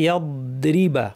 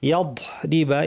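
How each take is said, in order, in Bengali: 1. d ধ্বনিটি র-এর সাথে স্থির রেখে টানা হয়। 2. d ধ্বনির পরে বাতাস ছেড়ে দেওয়া হয়। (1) "বদের আওয়াজটা র শুরু হওয়া পর্যন্ত জারি থাকবে" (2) "অনেকে এখানে বদ থেকে বাতাস ছেড়ে দেন"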